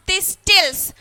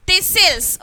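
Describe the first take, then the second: First: Slow "thistles" with a clear T, this-tils; wrongly sounded T. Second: Slow "thistles" with no T, this-sils; silent T. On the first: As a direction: hit the middle T in "thistles". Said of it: "I didn't pronounce thistles". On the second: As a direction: skip the T and lean on the S in "thistles". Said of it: "I didn't pronounce". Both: Shown as a demonstration.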